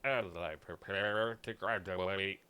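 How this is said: It is said in a flat, robotic computer voice.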